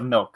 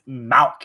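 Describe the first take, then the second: First: The vowel sounds like 'ih'. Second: The vowel sounds like 'ah'. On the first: The speaker calls it right. "instead of milk" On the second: The speaker calls it wrong. "people that says malk instead of milk"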